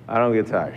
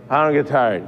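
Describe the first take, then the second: First: Said in the usual way. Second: "I don't get tired" said firmly, with conviction; now say it like you believe it; meaning it. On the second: Retold or imitated. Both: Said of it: "No, say it like you mean it".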